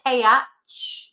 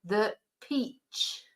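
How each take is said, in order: First: "P H" as two slow syllables, pe-ach; mispronounced peach. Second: "peach" as one syllable with long ee; soft, single-syllable "peach" with long ee; correct English pronunciation. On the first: Teacher warning learners off a spelling reading, split pe-ach. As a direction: split "P H" into separate vowels, slowly. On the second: Teacher correcting the spelling reading, one-syllable "peach". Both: Shown as a demonstration. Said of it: "not P H".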